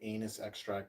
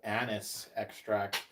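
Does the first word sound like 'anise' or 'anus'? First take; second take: anus; anise. First: The first word sounds like 'anus'. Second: The first word sounds like 'anise'. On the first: The speaker calls it wrong. "I don't want to say anus extract" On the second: The speaker calls it right. "but anise extract"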